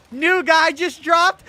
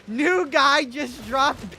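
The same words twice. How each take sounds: First: Loud, high, drawn-out hype call; hype announcement. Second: Loud, very slow, stretched-out hype call; slower hype call. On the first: Joking to chat about liberal Ben Shapiro, loud hype call. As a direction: announce it like breaking news. Hyping a joke meme line. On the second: Repeating the joke to chat, slower stretched hype. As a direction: draw every word out for the crowd. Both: Pretend.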